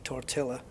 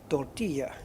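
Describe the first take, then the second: First: The double L is said as an L sound. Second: The double L is said as a Y sound. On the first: The speaker calls it wrong. "they know now not to say tortilla" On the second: The speaker calls it right. "the double L is like a Y or a soft J"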